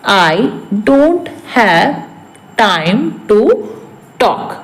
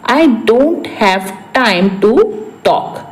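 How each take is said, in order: First: Broken up with long pauses; word-by-word repeat. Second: Said in the usual way. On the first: Shown as a demonstration. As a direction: dictate it bit by bit to learners. (एक-एक शब्द, रुक-रुक कर)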